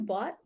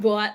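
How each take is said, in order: First: It is said in a neutral accent. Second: It is said in a New York accent.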